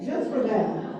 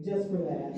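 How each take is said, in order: First: "just for that" said louder, with force; emphatic repeat. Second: Said in the usual way. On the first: Real, not acted.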